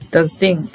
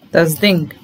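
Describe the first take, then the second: No difference in how they are said.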